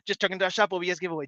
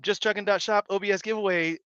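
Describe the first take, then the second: First: It is said as fast as possible. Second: It is said at a normal speed.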